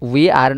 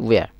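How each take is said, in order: First: It is said as two separate full words. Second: It is said as one short contracted word. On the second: "generally হইতে উইয়ার"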